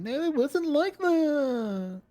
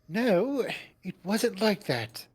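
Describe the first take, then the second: First: It is said in a babyish whine. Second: It is said in a plain voice.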